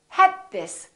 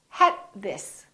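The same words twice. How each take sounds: First: The d is held before the next word. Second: The same.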